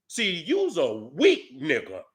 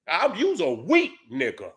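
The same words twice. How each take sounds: First: Slow, drawn-out put-down; slow contempt. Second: Said in the usual way. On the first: Real, not acted. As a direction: lean on every word with scorn.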